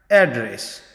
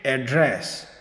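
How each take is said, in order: First: address stressed on the first syllable, AD-dress; American address. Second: address stressed at the end, ad-DRESS; British address. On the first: Teacher demos American address, first syllable stressed. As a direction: lean on the front of address. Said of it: "address में American". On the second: Teacher demos British address, last syllable stressed. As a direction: push the weight onto the end of address. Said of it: "और British address". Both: Shown as a demonstration.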